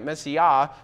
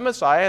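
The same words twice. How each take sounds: First: The word has a Hebrew-like pronunciation. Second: The word has the usual English pronunciation. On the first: "It's not pronounced Messiah in Hebrew. It's more like Messiah" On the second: "we pronounce it Messiah, and that's okay"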